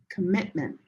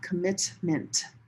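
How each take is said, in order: First: The middle T is swallowed with the air stopped. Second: The middle T is clearly released with air. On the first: The speaker calls it right. "So you don't hear the T at all" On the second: The speaker calls it wrong. "It's not commitment"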